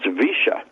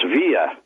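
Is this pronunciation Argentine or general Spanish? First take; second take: Argentine; general Spanish. First: It is said the Argentine way. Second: It is said the general Spanish way. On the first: "but not in Argentina. It's Villa" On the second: "that's Villa in Spanish, right, anywhere you go"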